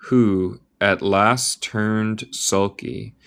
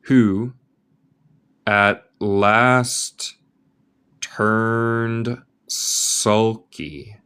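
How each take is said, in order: First: Said in the usual way. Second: Very slow, word by word; slow reading aloud. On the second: Shown as a demonstration. Teacher reading the line very slowly to students. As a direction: stretch each word out for the learner.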